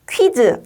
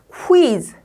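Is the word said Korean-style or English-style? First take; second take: Korean-style; English-style. First: It is said with Korean-style syllables. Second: It is said with English pronunciation. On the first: The speaker calls it wrong. "퀴즈 아니고" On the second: The speaker calls it right. "quiz라고 발음해요"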